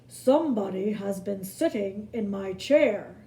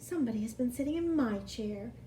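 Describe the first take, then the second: First: It is a big, rough, gruff bear voice. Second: It is a middle-sized bear's medium voice.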